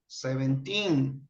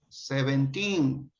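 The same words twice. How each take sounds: First: The stress is on the last syllable. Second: The stress is on the last syllable.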